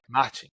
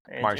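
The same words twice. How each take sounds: First: The R sounds like an H. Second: The R sounds like an American English R. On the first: This is how a speaker from Rio says it. "It's more like an H" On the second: This is how a speaker from São Paulo might say it. "He might actually say more like in America"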